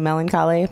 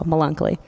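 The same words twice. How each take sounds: First: The word has its usual standard pronunciation. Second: The word is pronounced in an altered, mangled way. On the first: "technically Melancholy" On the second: "he can't pronounce it, and that made me happy, so Melancholy"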